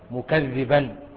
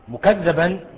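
First: The vowel on the doubled dh is 'i'. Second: The vowel on the doubled dh is 'a'. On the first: His own words give the lie to his deeds. "ويروى بكسر الذال" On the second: Other people call him a liar. "بفتح الذال"

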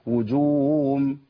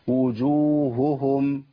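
First: The vowel swells like w and h is lost. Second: Each h sound is clearly pronounced. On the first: The speaker calls it wrong. "الخطا ... كاني بجيب واو" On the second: The speaker calls it right. "ده الصواب"

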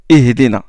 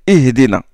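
The two takes are said the same way.

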